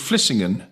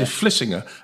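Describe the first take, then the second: First: The final n is clearly sounded. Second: The final n is dropped. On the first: This is how outsiders say it. "as you would say" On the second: This is how locals say it. "they don't pronounce the N at the name on any names"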